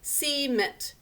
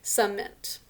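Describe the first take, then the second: First: The first vowel is a clear, full e. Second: The first vowel is weak and reduced. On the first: This is a spelling aid, not everyday speech. "we think to spell this as cement" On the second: This is how the word is normally spoken. "usually we pronounce the word as cement"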